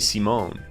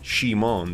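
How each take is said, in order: First: The name is pronounced the French way. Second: The name is pronounced the Japanese way. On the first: "in French, I knew this, you say Simon" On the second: "That's how they would say Simon"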